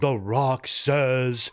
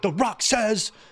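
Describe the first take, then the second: First: It is said slowly, with low energy. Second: It is said quickly, with high energy.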